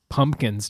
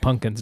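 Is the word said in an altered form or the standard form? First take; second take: standard; altered. First: The word is said in its standard, unchanged pronunciation. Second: The word is said in an altered, changed pronunciation. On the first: This is the accepted form of the word. The speaker calls it right. "I have strong feelings about changing the word pumpkin" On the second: This is how someone else says the word. The speaker calls it wrong. "Or as my mom would say"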